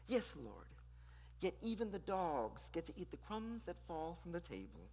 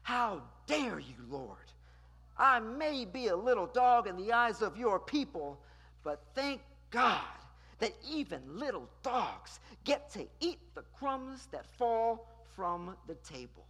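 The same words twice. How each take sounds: First: Very soft and meek, almost hushed; reply gently, as if bowing your head; meek, hushed plea to a master; soft genteel reply. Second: Firm, defiant, unbowed; a touch of defiant indignation; bold indignant reply. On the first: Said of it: "she ever so softly replies". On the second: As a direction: answer back with dignity. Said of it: "she boldly says". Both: Shown as a demonstration.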